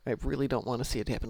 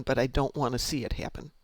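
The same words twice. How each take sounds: First: Really pushed, rest quick and soft; stress on really. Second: Said in the usual way. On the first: Real, not acted. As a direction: lean on really, then rush.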